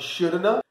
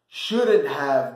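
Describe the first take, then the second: First: Have is reduced to a short uh sound. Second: The word have is said in full.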